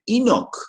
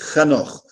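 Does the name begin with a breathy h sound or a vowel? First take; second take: vowel; h sound. First: The name begins directly with a vowel. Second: The name begins with a breathy h sound. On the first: This is an adapted form used in translations. The speaker calls it wrong. "alguns pronunciam, inclusive, Enoch" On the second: This is the original Hebrew form of the name. The speaker calls it right. "o nome hebraico original é Hanoch"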